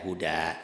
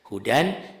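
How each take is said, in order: First: The word ends with a long a vowel. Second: The word ends with an n sound. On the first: The reading stops on this word. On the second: The reading continues without stopping.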